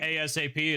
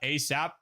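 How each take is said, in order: First: It is spelled out as four separate letters. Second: It is said as a single two-syllable word. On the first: "somebody spell the letters" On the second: "I've always pronounced that ASAP"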